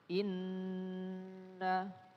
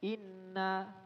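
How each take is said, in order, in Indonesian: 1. N ganda itu ada dengung sengau yang ditahan. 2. N ganda itu tidak ada dengung sengau yang ditahan. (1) "Kita baca inna" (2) "nggak gunnah, gunnahnya nggak sempurna"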